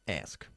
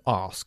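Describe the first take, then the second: First: Ask is said in an American accent. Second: Ask is said in a southern English accent. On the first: "And the Americans say ask" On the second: "In the south of England, people tend to say to ask for"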